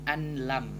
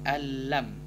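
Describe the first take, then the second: First: The n is pronounced separately before l. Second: The n is dropped and merged into l. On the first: The speaker calls it wrong. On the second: The speaker calls it right. "tidak dibaca nun, langsung ke memasukkan ke huruf lam"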